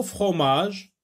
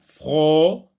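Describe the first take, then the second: First: Said in the usual way. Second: "Fromage" split into fro, ma, ge with clear gaps; syllable by syllable. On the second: Shown as a demonstration. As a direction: sound out "Fromage" loudly, one syllable at a time. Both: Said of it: "si on le sectionne".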